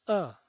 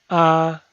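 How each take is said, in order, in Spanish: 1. El tono cae de alto a bajo. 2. El tono se mantiene alto y plano. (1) "El cuarto tono es un tono bajado" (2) "El primer tono es alto y sostenido"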